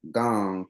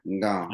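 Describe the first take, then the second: First: Gong with a hard g and no n in front; common mispronunciation. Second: Ngong with a faint nasal n barely heard before gong; proper pronunciation. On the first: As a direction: say gong as outsiders do, dropping the n. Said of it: "you'll hear it pronounced". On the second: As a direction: give Ngong just a whisper of n before gong. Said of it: "the N is sort of silent". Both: Shown as a demonstration.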